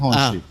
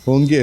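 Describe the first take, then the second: First: The name is said with a soft sh sound. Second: The name is said with a hard k sound. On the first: The speaker calls it right. "ചൈനീസുകാരെ അടുത്ത് അവരുടെ അവരെ പ്രൊനൗൺസിയേഷനാണ്" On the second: The speaker calls it wrong. "കുറേ ആൾക്കാരെ വിളിച്ചിട്ട് ഹോങ്കോയി അല്ലേ, ഹോങ്കി അല്ലേ"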